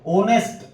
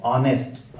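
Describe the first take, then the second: First: ऑनेस्ट said higher and louder, starting on O with no H sound; silent h. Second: ऑनेस्ट drawn out slowly, starting on O with no H sound; silent h, slowly. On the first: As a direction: say ऑनेस्ट as onest, dropping the H, with a rising tune. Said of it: "इसको बोलना नहीं है". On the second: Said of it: "ओ से इसका pronunciation यानी उच्चारण शुरू करना है". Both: Shown as a demonstration.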